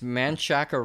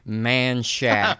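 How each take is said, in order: First: The name is said with three syllables. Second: The name is said with two syllables. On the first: The speaker calls it wrong. "You did not just say Manchaca" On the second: The speaker calls it right.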